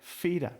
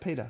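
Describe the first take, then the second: First: The name begins with an F sound. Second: The name begins with a P sound. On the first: "he had a very strong accent, very, I was feeder" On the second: "not Peter"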